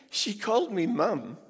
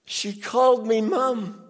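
First: High, lighter quote of the line; quoted wife. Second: Louder and higher, stress on called; emphatic repeat. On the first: Retold or imitated. Preacher quoting the wife's words high. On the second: Shown as a demonstration. Preacher repeating the wife's line louder for the crowd. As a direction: hammer it home louder.

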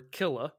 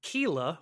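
First: Killa said as KILL-a, short i; self-correcting to Killa, short i like kill; corrected Killa. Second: Kila said slowly as KEE-la, long ee; first try at the name, Kila with a long ee; mispronounced Kila. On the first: Co-host fixing the name, says Killa with a short i. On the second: Co-host naming the boss, tries Kila with a long ee. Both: Shown as a demonstration. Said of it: "or Killa".

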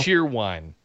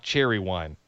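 First: "cheer wine" with one syllable in "cheer"; "cheer" rhyming with "deer", then "wine"; corrected pronunciation. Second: "cherry wine" with two syllables in "cherry"; "cherry" like the fruit, then "wine"; mistaken pronunciation. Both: Shown as a demonstration. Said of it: "not cherry wine".

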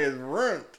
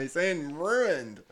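First: "runt" said as one clipped syllable for ruined; "It's runt." with ruined slurred to "runt". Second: Very slow, careful "ruined" in two syllables; "ruined" said very slowly, roo-ined; ruined spelled out. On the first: Retold or imitated. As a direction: squash ruined into "runt", hillbilly style. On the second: Shown as a demonstration. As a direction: pronounce "ruined" slowly and clearly.

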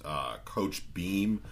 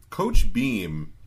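First: Said in the usual way. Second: Emphatic loud repeat. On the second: Acted.

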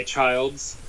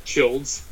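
First: Put-on Childs with a long i, like "child"; long-i pronunciation. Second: Put-on Childs with a short i, like "chilled"; short-i pronunciation. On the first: Host guessing a friend's surname, Childs with long i. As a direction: say Childs to rhyme with "wilds". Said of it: "I don't know how to pronounce". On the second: Host offering another surname guess, Childs with short i. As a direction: say Childs to rhyme with "builds". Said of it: "pronounce it one way or the other". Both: Shown as a demonstration.

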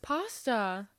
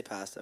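First: "Pasta" with broad a, PAH-sta; pronunciation demo. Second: "pasta" with a as in cat, PASS-ta; pronunciation demo. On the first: Answering what she says, "Pasta" as PAH-sta. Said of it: "What do you say?". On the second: Telling co-host his version, "pasta" as PASS-ta. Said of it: "I say pasta". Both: Shown as a demonstration.

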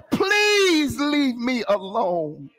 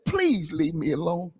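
First: High, drawn-out mock wail on PLEASE; crying out in plea. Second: Understated retelling, a small stretch on PLEASE; retold plea. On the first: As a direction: stretch PLEASE into a slow, pleading cry. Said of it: "What he was crying out". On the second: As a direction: repeat the plea lightly, without the wail. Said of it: "he said".

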